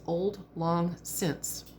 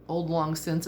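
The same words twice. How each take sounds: First: Each word drawn out very slowly; slow translation. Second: Said in the usual way. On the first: Shown as a demonstration. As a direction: spell out the old phrase slowly and clearly. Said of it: "the literal translation of Auld Lang Syne is".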